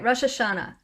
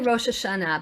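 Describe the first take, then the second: First: It is said with an American pronunciation. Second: It is said with a Hebrew pronunciation. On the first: "I say Rosh Hashanah, something like that" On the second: "But it's really"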